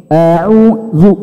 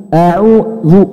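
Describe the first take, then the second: Both takes have the same delivery.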